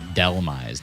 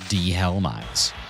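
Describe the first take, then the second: First: No 'h' sound is heard in the middle. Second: An 'h' sound is heard in the middle. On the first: The speaker calls it right. "you pronounce it Delmai's" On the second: The speaker calls it wrong. "not De-Helmai's"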